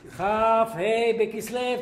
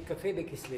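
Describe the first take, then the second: First: The first two words are said clearly and separately. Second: The first two words are rushed into one word. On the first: The speaker calls it right. "כף ה' בכסלו תגיד" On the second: The speaker calls it wrong. "אמרתי את הכף ה' בכסלו במהירות"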